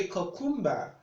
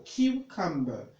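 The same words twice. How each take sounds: First: "cucumber" said wrongly as kuh-KUM-ber; mistaken pronunciation. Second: "cucumber" starting KYOO, as KYOO-cum-ber; correct pronunciation. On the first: Retold or imitated. Tutor quoting what some persons say, mistaken pronunciation. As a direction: imitate learners saying "cucumber" without the KYOO sound. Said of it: "some persons will want to say". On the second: Shown as a demonstration. Tutor showing number four on the list, correct pronunciation. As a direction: model "cucumber" with a clear "Q" opening. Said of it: "we should pronounce the word that way".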